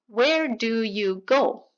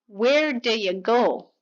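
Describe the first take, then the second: First: Each word is said clearly and separately. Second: The words are reduced and blended together quickly. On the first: "Clean, unreduced" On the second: "普通のネイティブがこのように"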